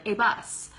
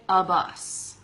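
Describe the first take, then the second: First: "a" said as long "ay" before bus; full vowel a. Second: "a" reduced to a quick "uh" before bus; relaxed "a" as "uh". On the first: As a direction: say "a" fully as "ay", properly. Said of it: "Sometimes I do". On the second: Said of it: "a lot of times we just say". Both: Shown as a demonstration.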